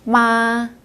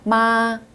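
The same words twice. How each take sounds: First: The pitch stays high and level throughout. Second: The pitch stays high and level throughout.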